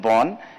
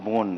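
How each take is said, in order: First: The vowel is short, like 'bon'. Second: The vowel is long, like 'bone'. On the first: It names the German city. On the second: It means forest.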